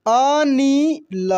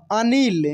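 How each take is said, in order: First: अनिल slowly as a, ni, la; syllable by syllable. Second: Said in the usual way. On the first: Shown as a demonstration. Teacher reading for learners, अनिल slowly syllable by syllable. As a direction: stretch out each syllable of अनिल. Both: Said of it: "अब direct पढ़ते हैं".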